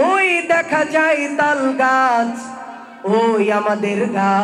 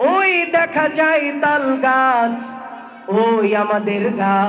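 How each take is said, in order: First: It is recited in a sermon preacher's style. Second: It is recited in a sermon preacher's style.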